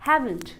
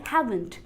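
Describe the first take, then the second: Both takes have the same delivery.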